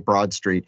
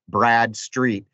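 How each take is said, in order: First: The first part is said like 'broad'. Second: The first part is said like 'brad'. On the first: The speaker calls it wrong. "I always try to say Broad Street" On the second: The speaker calls it right. "It's B R A D, Brad, like the name"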